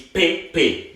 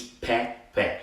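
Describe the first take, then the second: First: "pe pe" slow, closed "ay", pay-pay; unaccented vowel. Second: "pe pe" slow, soft, open "eh", peh-peh; accented vowel. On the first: Teacher contrasts the word without the accent, "pe pe" as slow pay-pay. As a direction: say "pe pe" slowly as pay-pay. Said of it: "Now, without the accent". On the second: Teacher contrasts the word with the accent, "pe pe" as peh-peh. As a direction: say "pe pe" slowly and softly as peh-peh. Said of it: "With the accent". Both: Shown as a demonstration.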